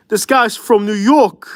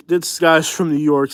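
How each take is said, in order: First: Put-on high, drawn-out New York accent. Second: Said in the usual way. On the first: Saying it on request, in a mock New York accent. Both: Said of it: "He wants me to hear".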